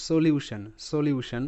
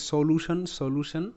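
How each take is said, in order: First: সলিউশন said as "so-lyu-shan", with a y-glide; correct pronunciation. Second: সলিউশন said as "so-lu-shon", with a plain "lu"; common mispronunciation. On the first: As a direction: put a clear "lyu" in the middle of সলিউশন. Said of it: "উচ্চারণটা ভালো করে শোনো". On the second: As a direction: drop the y-glide from সলিউশন, making it "so-loo-shon". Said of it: "অনেকেই ভুল করে, এটাকে বলে". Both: Shown as a demonstration.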